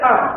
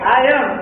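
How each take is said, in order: First: The words are squeezed into one short syllable. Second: Both words are said fully and separately. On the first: This is how native speakers say it. "ওরা বলছে" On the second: This is how local learners say it. "আমরা বলছি"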